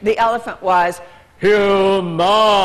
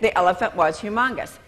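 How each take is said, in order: First: It is said expressively, with a dramatic voice. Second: It is said flatly, without expression.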